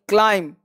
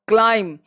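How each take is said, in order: Both takes have the same delivery.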